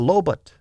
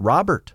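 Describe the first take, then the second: First: The name begins with an L sound. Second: The name begins with an R sound. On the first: "this is precisely how they pronounced it" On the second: "Robert, I said again"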